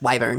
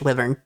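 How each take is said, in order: First: It is said with an American pronunciation. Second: It is said with a British pronunciation. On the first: "if you're speaking American English" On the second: "If you're speaking British English"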